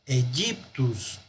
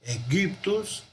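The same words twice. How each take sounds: First: Egyptus with a soft y-like G, slow and softer; Egyptus, G softened toward a Y sound; teacher offers the alternative Egyptus with soft G; other pronunciation. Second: Egyptus with a hard G and the Y sounded as a U, slow; teacher model of Egyptus, hard G, Y as U. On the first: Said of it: "La otra es pronunciar". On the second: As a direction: repeat Egyptus slowly, Y like U. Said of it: "como si fuera una U". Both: Shown as a demonstration.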